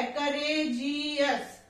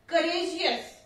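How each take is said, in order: First: करेजियस slowly stretched out sound by sound; syllable by syllable. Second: Said in the usual way. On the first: Shown as a demonstration. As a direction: break करेजियस into drawn-out syllables for a learner. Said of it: "three sound आ रही है". (करेजियस को धीरे-धीरे, एक-एक syllable तोड़कर बोलना) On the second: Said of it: "करेजियस में sound क्या है".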